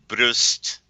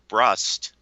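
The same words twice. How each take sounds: First: The name is said with a German pronunciation. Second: The name is said with an American pronunciation. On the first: "the German pronunciation is" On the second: "The American pronunciation is"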